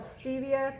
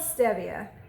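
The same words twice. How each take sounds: First: The word is pronounced a non-Spanish way. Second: The word is pronounced the Spanish way. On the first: "I've heard a lot of people call it stevia" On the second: "I call it stevia. ... because that's Spanish"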